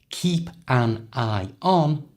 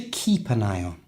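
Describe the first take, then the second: First: Each word is said separately. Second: The words run together like one word. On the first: "the whole thing has gone from" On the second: "Say it like it's just one word"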